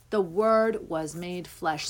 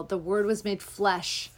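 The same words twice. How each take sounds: First: "The word was made flesh." said slowly, "word" leaned on; slow, weighty restatement. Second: Said in the usual way. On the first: Shown as a demonstration. Repeating scripture to her listeners, slow and weighty. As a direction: let "word" land, taking it slow.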